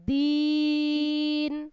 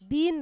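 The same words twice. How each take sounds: First: The vowel is drawn out long. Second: The vowel is short and clipped. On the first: The speaker calls it right. "দিন বলেন টেনে" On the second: The speaker calls it wrong. "দিন রাত"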